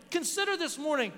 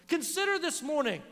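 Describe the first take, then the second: No difference in how they are said.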